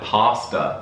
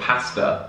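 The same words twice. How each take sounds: First: The first vowel is a long 'ah' sound. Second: The first vowel is a short 'a' as in 'cat'. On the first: This is the American way of saying it. "the R is more American, like pasta" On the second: This is the British way of saying it. "instead of pasta"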